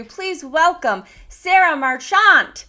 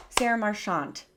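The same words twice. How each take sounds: First: Slow, loud, higher announcer welcome stretching "Sarah Marchant"; grand introduction. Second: Said in the usual way. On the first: Shown as a demonstration. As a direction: announce the guest like a game show host, slowly. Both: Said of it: "Did I say it right?".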